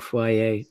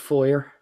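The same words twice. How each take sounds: First: It is said with a fancy, affected pronunciation. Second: It is said with the plain, common pronunciation. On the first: The speaker wants to sound sophisticated. "saying foyer to sound poncy" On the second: Most Americans say it this way. "the bulk of Americans said foyer"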